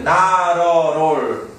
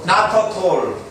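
First: The t sounds are soft r-like flaps, linked smoothly. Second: The t sounds are hard, unlinked stops. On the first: The speaker calls it right. "그래서 나러롤이거든요" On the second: The speaker calls it wrong. "발음이 리듬감이 안 나죠"

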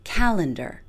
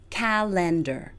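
First: The stress falls on the first syllable. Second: The first two syllables are stressed equally. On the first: The speaker calls it right. "place all of our stress on the first syllable" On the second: The speaker calls it wrong. "places equal stress on the first two syllables"

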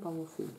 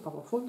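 First: The second vowel is a rounded front 'ü' sound. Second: The second vowel sounds like the 'u' in full. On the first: The speaker calls it right. "sondern Powerfüll. ... Hätte ja mit Ü geschrieben" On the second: The speaker calls it wrong. "nicht Powerfüll"

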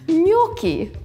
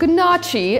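First: The word is said differently from its spelling. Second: The word is said the way it is spelled. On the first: The speaker calls it right. "but then I learned it's gnocchi" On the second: The speaker calls it wrong. "They're spelled gnocchi, and I always thought that's how you pronounce it"

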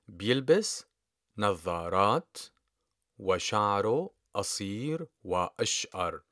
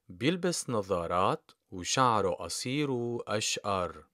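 First: The word for 'and' is pronounced fully as wa. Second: The word for 'and' is reduced to oo.

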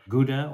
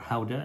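First: The word is said with an English pronunciation. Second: The word is said with a Dutch pronunciation.

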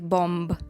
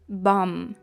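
First: The word ends with an audible b sound. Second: The word ends without a b sound. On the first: The speaker calls it wrong. "Дуже хочеться сказати бомб, але ні" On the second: The speaker calls it right. "слово «бам». Бам"

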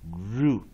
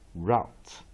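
First: The vowel is a long 'oo' like 'boot'. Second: The vowel is a diphthong like 'out'. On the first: "这个 U 念长母音" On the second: "o 跟 u 念双母音 ，t 不发音"

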